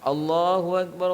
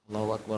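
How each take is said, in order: First: It is said loudly and strongly. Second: It is said softly and quietly. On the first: "baru dikeraskan" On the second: "dia baca pelan-pelan dulu"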